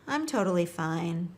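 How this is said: It is said in a slightly sad tone. The person is upset and may need support. "The second one was a little bit sadness"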